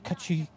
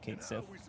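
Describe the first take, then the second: First: The first syllable sounds like 'ketch'. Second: The first syllable sounds like 'kate'. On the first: The speaker calls it wrong. "All the nerds who told us that his name is Ketchy were wrong" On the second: The speaker calls it right. "No, it's actually Kate Sith"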